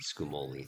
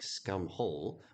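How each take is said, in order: First: The name ends with an 'oli' sound. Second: The name ends like the word 'hole'. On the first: "I'm probably just going to stick with the pronunciation scumoli" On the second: "The wiki thinks the actual pronunciation is scumhole to sound kind of like scumhole"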